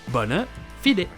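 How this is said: It is said with a Latin-style pronunciation. "si vous voulez vous la péter avec le latin, ça sera la version bona fide"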